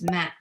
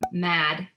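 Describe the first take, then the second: First: The word ends in a voiceless t sound. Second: The word ends in a voiced d sound. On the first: The speaker calls it wrong. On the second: The speaker calls it right.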